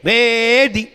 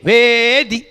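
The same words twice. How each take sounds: First: भेदी with a falling close and a break after; showing the comma break after भेदी; pause at comma. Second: भेदी said firmly, then a clear stop; teacher shows the pause after भेदी; pause after word. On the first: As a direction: drop the tune on भेदी and stop. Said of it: "वहाँ comma भी लगा है". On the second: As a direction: land on भेदी and break at the comma. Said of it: "break लगा दो". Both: Shown as a demonstration.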